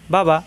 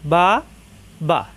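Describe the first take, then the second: First: The two syllables are joined quickly without delay. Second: The two syllables are said separately, one by one. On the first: The word is being read as a whole. "একাত্তরে পড়লে" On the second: The word is being spelled out. "বানান করলে"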